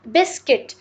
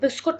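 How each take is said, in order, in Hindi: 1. दूसरा स्वर 'i' जैसा सुनाई देता है। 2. दूसरा स्वर 'u' जैसा सुनाई देता है। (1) "इसको बिस्किट बोला जाता है" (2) "बहुत सारे लोग इसको बिस्कुट बोलते हैं, ये बिस्कुट नहीं होता है"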